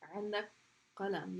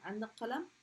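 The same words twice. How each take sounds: First: The voice falls at the end. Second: The voice rises at the end. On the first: It states that the listener has a pen. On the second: It asks whether the listener has a pen.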